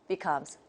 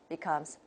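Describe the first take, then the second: No difference in how they are said.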